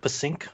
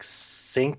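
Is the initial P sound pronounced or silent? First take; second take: pronounced; silent. First: The word starts with a pronounced p sound. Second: The word starts with an s sound, no p.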